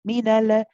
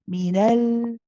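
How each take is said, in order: First: The final L bounces off into an added vowel. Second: The final L stops cleanly with no added vowel. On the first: The speaker calls it wrong. "We didn't say minala" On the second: The speaker calls it right. "You stay at the makhraj"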